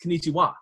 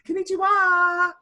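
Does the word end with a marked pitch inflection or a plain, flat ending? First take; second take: plain; inflection. First: It ends plainly with no added inflection. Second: It ends with an exaggerated pitch inflection.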